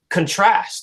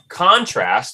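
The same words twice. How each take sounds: First: The stress is on the second syllable. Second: The stress is on the first syllable. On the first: It is used as a verb. "which is more of a verbal sound" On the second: It is used as a noun. "which is more of a noun"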